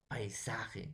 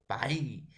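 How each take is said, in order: First: Said in the usual way. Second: "paisaje" as pai... sa... je, with long gaps; split into syllables. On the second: Shown as a demonstration. Teacher shows the class the division, "paisaje" syllable by syllable. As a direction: say "paisaje" in three isolated beats, ai kept together. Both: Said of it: "Entonces, profesor, sería paisaje".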